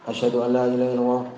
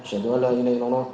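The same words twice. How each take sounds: The two takes are said the same way.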